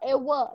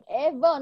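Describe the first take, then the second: First: The middle sound uses rounded, puckered lips. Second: The middle sound uses teeth on the lower lip. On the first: The speaker calls it wrong. "not ever" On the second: The speaker calls it right. "because the V is there, which will tell you you have to bite your lips"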